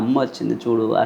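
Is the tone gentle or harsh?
gentle. It is said in a soft, gentle, encouraging tone. The child is being lovingly encouraged. The speaker calls it right.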